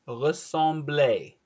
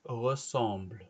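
First: The word ends with an 'ay' vowel sound. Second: The final e is silent. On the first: The speaker calls it wrong. "If you put ressembler, you have an accent" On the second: The speaker calls it right. "If you don't have the accent, it's ressemble"

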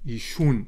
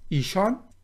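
First: The second vowel is a u sound. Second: The second vowel is an a sound.

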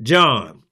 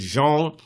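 First: The name is said to sound like 'John'. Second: The name is said with a French pronunciation. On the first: "We pronounce it John" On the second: "by being French, it's Jean"

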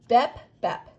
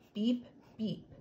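First: The vowel is short, as in 'bet'. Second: The vowel is long, as in 'bee'. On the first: The speaker calls it wrong. "They definitely don't say bep, bep" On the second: The speaker calls it right. "the E said its name instead of its sound"

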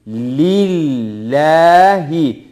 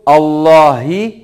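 First: The word begins with a doubled 'l' sound. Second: The word begins with an 'a' vowel. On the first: The speaker calls it right. "şeklinde okuyoruz" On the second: The speaker calls it wrong. "şeklinde okumuyoruz"

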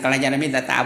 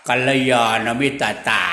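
First: The word is spoken quickly. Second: The word is spoken slowly. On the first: "พูดเร็วหน่อยนะ" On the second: "พูดช้าๆก็"

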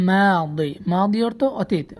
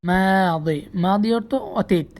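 Both takes have the same delivery.

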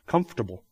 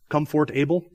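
First: The syllables are reduced and shifted in speech. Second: Every syllable is pronounced as it is spelled. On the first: The speaker calls it right. "We all say what?" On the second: The speaker calls it wrong. "Is there anybody that really says comfortable?"

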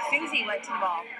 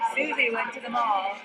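First: The stress is on the word Susie. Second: The stress is on the word mall.

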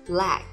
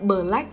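First: The first two consonants run closely together. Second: The first two consonants are pulled apart. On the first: The speaker calls it right. "chúng ta đọc hai phụ âm này gần nhau nhé" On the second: The speaker calls it wrong.

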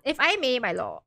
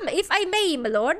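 First: It is spoken without an Irish accent. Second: It is spoken with an Irish accent. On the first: The speaker calls it wrong. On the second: The speaker calls it right.

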